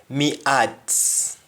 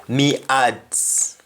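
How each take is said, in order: No difference in how they are said.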